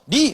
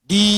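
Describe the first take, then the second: First: The vowel is short. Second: The vowel is long. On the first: "Bahkan di ini pendek" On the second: "ini panjang"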